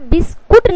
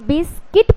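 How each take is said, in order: First: The second syllable has an 'oo' vowel. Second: The second syllable has an 'ee' vowel. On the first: The speaker calls it wrong. "आपको यहाँ पे बिस्कुट नहीं पढ़ना है" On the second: The speaker calls it right. "यहाँ पे आपको बिस्किट पढ़ना है"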